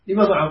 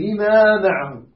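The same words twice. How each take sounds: First: The vowel after the first m is cut short. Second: The vowel after the first m is held long. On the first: The speaker calls it wrong. "قطع" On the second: The speaker calls it right. "هي لما معهم"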